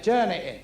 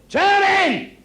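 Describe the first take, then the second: First: Said in the usual way. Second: High, loud cry of turn it in; Jesus yelling at the crowd to stop throwing stones; shouted. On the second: Retold or imitated. Jesus yelling at stone-throwing women to stop, loud and high. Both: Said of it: "And he said".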